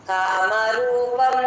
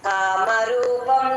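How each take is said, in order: No difference in how they are said.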